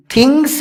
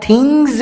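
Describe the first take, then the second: First: تھنگس ending in a sharp hissing s; wrong pronunciation. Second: تھنگز ending in a buzzing z sound; correct pronunciation. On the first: Teacher showing students the mistake, تھنگس with an s. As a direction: say تھنگس with an s at the end, the way to avoid. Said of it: "نہیں". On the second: Teacher telling students the right way, تھنگز with a z. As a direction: say تھنگز with a voiced z at the end. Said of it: "اس کا تلفظ زا سے ہوگا". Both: Shown as a demonstration.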